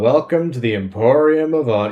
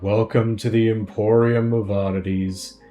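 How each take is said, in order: First: It is said in the speaker's own voice. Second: It is said in an Eeyore-like voice.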